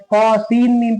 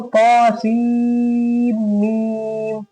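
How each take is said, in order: First: The long vowels are cut short. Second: The long vowels are held long. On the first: The speaker calls it wrong. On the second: The speaker calls it right.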